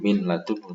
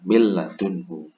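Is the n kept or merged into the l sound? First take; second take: kept; merged. First: The n is pronounced clearly before the l. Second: The n merges fully into the following l. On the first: The speaker calls it wrong. "bukan min ladunhu" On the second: The speaker calls it right. "tapi lebur ke huruf lamnya"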